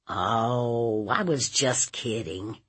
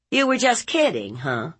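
First: Sheepish nephew. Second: High, quick mocking echo; scornful aunt. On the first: Acted. Nephew excusing himself to his aunt, sheepish. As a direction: offer a weak, subdued excuse. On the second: Aunt mocking nephew's excuse, high and scornful. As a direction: toss the excuse back with scorn.

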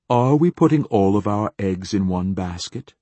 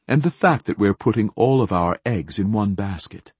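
First: "we" stressed, ending in a rise; rising question leaning on "we". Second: Said in the usual way. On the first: A narrator's reading. Same cliché rephrased as a question.

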